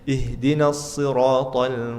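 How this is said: It is said with light, relaxed articulation. The speaker calls it right. "santai aja"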